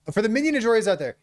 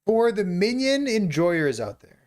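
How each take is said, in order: First: Quick, higher, hyped-up shout-out; fast and hyped. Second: Slow, drawn-out tribute; slow dedication. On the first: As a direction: rattle it off with excitement. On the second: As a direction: say it slowly like a toast. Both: Shown as a demonstration.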